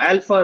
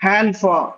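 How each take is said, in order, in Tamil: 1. வார்த்தை நேரடியாக உயிரெழுத்துடன் தொடங்குகிறது. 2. வார்த்தை 'h' ஒலியுடன் தொடங்குகிறது. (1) "ஆல்பான்னு படிக்காம" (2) "எச் முன்னாடி வந்துடணும்"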